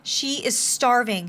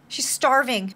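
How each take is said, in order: First: "She is starving" drawn out word by word; slow emphasis. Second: Said in the usual way. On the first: Real, not acted. Repeats it slowly for emphasis.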